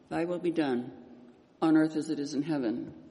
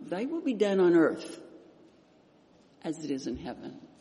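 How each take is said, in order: First: There is a pause between 'done' and 'on earth'. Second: It runs on without a pause after 'done'. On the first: The part about earth sounds tacked on. The speaker calls it wrong. "You know how it goes" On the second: It asks for God's will on earth as in heaven. The speaker calls it right. "how about we change that just a little bit"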